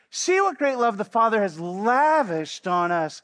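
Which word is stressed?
lavished. The word lavished is strongly emphasized.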